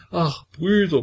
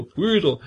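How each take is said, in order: First: High, tearful cry of Brüder falling away; sobbing lament. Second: High, tearful Brüder with a falling sigh; sobbing lament. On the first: Petka crying out to the brothers, high and tearful. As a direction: wail Brüder like a frightened child. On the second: Petka pleading again to the brothers, high and tearful. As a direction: repeat Brüder, still crying like a child. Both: A narrator's reading. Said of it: "wie ein Kind schluchzend zu sprechen".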